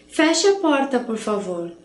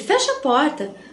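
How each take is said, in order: First: It is said as a polite request. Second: It is said rudely, as an order.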